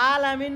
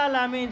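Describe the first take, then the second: First: "আলামিন" with an ordinary "আ", no throat sound; unthroated opening vowel in "আলামিন"; wrong plain vowel. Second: "আলামিন" with a long throaty first "আ"; held Arabic ain starting "আলামিন"; correct ain. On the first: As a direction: say "আলামিন" the everyday Bangla way. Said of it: "আলামিন বললে কি হবে না". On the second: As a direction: draw the opening vowel of "আলামিন" from mid-throat. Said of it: "সেখানে আইন". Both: Shown as a demonstration.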